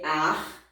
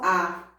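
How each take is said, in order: First: "ar" with the final R clearly pronounced; R sounded. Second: Plain "a" with no R after it; bare vowel. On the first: Teacher showing pupils the sound, R sounded. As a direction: let "ar" end on an audible R. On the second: Teacher contrasting sounds for pupils, bare vowel. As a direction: say "a" as the open vowel alone. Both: Shown as a demonstration. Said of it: "pronúncia correta do R".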